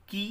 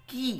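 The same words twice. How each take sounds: First: Said in the usual way. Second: "কি" with the vowel held longer; drawn-out long i. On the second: Shown as a demonstration. Teacher repeating the letter series, "কি" with a drawn-out vowel. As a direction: stretch the i in "কি". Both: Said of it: "একটু টানটা একটু বেশি হবে দীর্ঘ এর ক্ষেত্রে".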